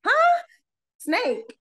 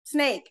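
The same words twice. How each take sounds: First: High startled yelp then confused repeat; startled disbelief. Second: Flat, unexcited one-word report; a hint of a mellow, monotone coworker. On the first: Retold or imitated. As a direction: jolt up in shock, then check what you heard. Hearing a snake warning. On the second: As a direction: say it like it's nothing. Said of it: "very monotone".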